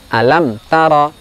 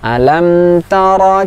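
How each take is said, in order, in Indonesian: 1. Bunyi m terpotong tiba-tiba. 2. Bunyi m ditahan sebentar sebelum dilanjutkan. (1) "ini kurang tepat" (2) "Yang benar bagaimana?"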